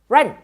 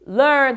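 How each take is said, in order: First: It begins with an R sound instead. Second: It begins with a clear L sound. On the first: The speaker calls it wrong. "run 이렇게 버리면 어 이건 안 되죠" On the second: The speaker calls it right. "이렇게 learn 할 걸"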